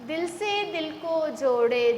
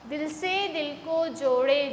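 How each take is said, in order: Both takes have the same delivery.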